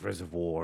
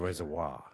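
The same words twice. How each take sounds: First: "Reservoir" ending in a plain vor; "Reservoir" without the w glide; first local pronunciation. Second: "Reservoir" ending in vwah; "Reservoir" with a French-style w glide; second, posher pronunciation. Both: Shown as a demonstration. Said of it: "that's an income and breeding distinction".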